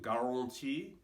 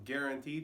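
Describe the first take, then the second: First: It has a French-flavored pronunciation. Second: It has a plain American pronunciation.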